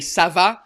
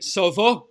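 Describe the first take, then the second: First: It is said with a European French accent. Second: It is said with a Quebec French accent. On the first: "in French we say ça va" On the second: "you guys say ça va"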